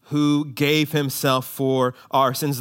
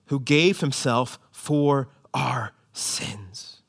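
First: Slow, each word weighted, "who gave himself for our sins"; emphatic slow reading. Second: Slow hushed whisper of "Who gave himself for our sins"; whispered verse. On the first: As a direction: lean on "gave", slowly and firmly. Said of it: "the God and Father of our Lord Jesus Christ". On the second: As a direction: breathe it out, slow and secret. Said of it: "Not really". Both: Shown as a demonstration.

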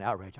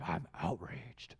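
First: Said in the usual way. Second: Low, soft, slow sarcastic "I'm outraged" with weight on outraged; mock outrage. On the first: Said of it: "that's what you'll find". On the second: Preacher mocking social media users, drawn-out hushed scorn.

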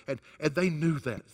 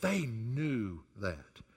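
First: Said in the usual way. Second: Hushed, drawn-out emphasis on they; softer, slower echo of they knew that; soft slow repeat. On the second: Acted. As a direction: let it sink in quietly.

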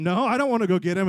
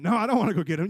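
First: Loud, balking protest; hammed-up squabbling comeback; insistent refusal. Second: Quick protest in a squabble; hammed-up reluctant comeback; balking refusal. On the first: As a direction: dig in and refuse loudly. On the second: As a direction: refuse the job, reluctant and insistent.

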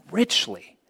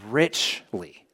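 First: "Richly" lifted higher, soft but pointed; emphatic repeat. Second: Said in the usual way. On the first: Shown as a demonstration. Preacher repeating richly to congregation, stressed higher.

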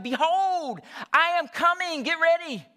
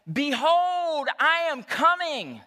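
First: Higher and louder proclamation; louder preacher yell. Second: Higher, booming mock sermon line, slow; mock preacher proclamation. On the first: Retold or imitated. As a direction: yell it to get a reaction from the crowd. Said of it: "So he yelled it even louder". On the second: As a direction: proclaim it like a nervous young pastor. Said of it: "preaching for the first time".

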